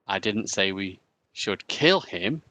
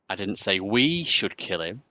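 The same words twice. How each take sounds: First: The stress falls on the word 'kill'. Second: The stress falls on the word 'we'.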